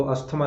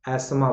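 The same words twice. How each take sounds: First: अस्थमा with 'tha' sounded; three-syllable 'as-tha-maa' for अस्थमा; wrong pronunciation. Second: Two-syllable 'as-maa' for एस्मा; correct pronunciation. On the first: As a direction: mistaken अस्थमा for contrast. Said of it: "तो अस्थमा नहीं बोलेंगे". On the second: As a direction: lower एस्मा, no 'th'. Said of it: "एस्मा बोलेंगे". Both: Shown as a demonstration.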